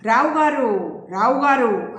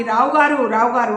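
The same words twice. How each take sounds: First: Said in the usual way. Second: Louder, firm call of the name; doctor calling the unresponsive patient loudly. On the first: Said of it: "రెండుసార్లు పిలిచాడు". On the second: Acted. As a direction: call out to wake him. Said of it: "అని గట్టిగా పిలిచి".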